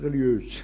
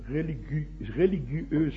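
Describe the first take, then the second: First: The word is pronounced in its everyday spoken form. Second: The word is pronounced just as it is spelled. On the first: This is how people actually say the word. "aber man spricht es" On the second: This is how the word is written. "schreibt man es"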